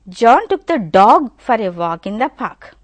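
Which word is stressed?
dog. The stress falls on the word dog. It was the dog that he took. "if you give stress on dog"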